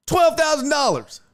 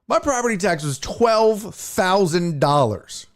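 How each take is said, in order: First: Twelve thrown up much higher, hit hard; incredulous repeat. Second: Said in the usual way. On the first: Real, not acted. Ranting about his property tax, high outraged stress on Twelve. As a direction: echo the figure in disbelief.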